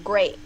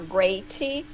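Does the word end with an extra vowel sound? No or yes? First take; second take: no; yes. First: The word ends cleanly on the t sound. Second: The word ends with an added ee vowel. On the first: The speaker calls it right. "I want to say great" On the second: The speaker calls it wrong. "not greaty, like a Brazilian would do"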